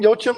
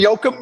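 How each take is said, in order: First: The middle consonant is a ch sound. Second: The middle consonant is a hard k sound. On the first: "I've always said Yochum, like chips" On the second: "I think it's Yoakum"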